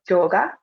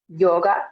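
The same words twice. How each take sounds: First: It starts with a hard J sound. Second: It starts with a soft Y sound.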